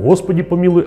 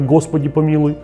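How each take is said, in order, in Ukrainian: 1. Перший приголосний — придихальний, щілинний звук, схожий на h. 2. Перший приголосний — твердий, вибуховий звук г. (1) "не існує звука «г», а тільки «г». Тому «Господі помілуй»" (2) "а не «Господі помілуй»"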